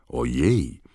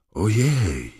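First: Said in the usual way. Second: High-pitched startled squeal; narrator's restrained shriek; mild mock shriek. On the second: A narrator's reading. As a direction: squeal it higher, without real volume. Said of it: "wrzasnęła Lavender Brown".

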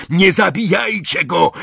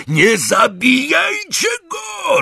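First: High, urgent command; urgent shout. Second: Very high, drawn-out scream; desperate roar. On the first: Malfoy to Crape and Goyle, urgent shout. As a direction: cry out to stop them. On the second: Malfoy to Crape and Goyle, desperate roar. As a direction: scream it out slowly, at the top of the range. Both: A narrator's reading. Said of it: "ryknął Malfoy na Crape'a i Goyla".

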